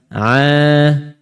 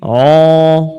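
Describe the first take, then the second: First: The vowel is an open 'a'. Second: The vowel is a rounded 'o'. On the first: The speaker calls it right. "kedua-dua rahang pisah, buka" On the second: The speaker calls it wrong. "Kalau terbunyi begini"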